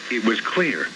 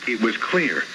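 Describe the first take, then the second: No difference in how they are said.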